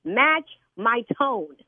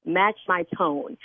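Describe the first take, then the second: First: Very slow, every word hit; stern repeat. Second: Slow, stern and deliberate; stern demand. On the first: Fed-up signer repeats her demand to the prank caller. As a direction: drill it in word by word. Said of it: "I told you to match my tone". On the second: Scolding church signer spells it out slowly to the caller. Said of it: "because you're getting very loud". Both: Real, not acted.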